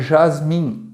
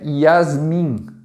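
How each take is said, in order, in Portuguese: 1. A palavra começa com um som suave de zh. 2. A palavra começa com um som de y. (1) "não é Jasmim" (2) "é Yasmin"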